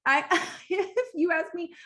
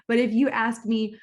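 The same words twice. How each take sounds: First: Higher pitched, with a laugh; breaking into a laugh mid-phrase. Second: Said in the usual way. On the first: Real, not acted. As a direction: giggle as you start the line. Laughing through a restart.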